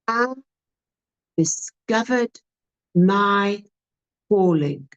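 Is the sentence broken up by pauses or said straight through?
paused. It is delivered with pauses and varied tone. The speaker calls it right. "which sounds much better"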